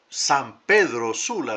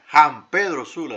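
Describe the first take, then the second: First: The name is said with standard Spanish pronunciation. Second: The name is said with colloquial Honduran pronunciation. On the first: "en lugar de decir" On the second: "ese se llama caliche catracho"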